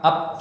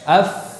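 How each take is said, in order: First: The final sound is made with both lips. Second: The final sound is made with lip and teeth. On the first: The speaker calls it wrong. "bukan bibir dengan bibir, pa, ap, salah, itu orang Sunda salah" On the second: The speaker calls it right. "Bibir bawah bagian dalam bertemu dengan ujung gigi seri atas"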